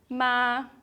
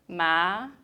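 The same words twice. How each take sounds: First: The pitch stays high and level. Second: The pitch rises from middle to high.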